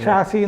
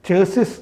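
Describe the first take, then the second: First: It starts with sh and has no final s. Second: It starts with ch and ends with s. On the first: The speaker calls it right. "ഷാസി എന്നാണ് അതിൻ്റെ ശരിയായ ഉച്ചാരണം" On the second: The speaker calls it wrong. "ചേസിസ് എന്ന് പറയില്ലേ"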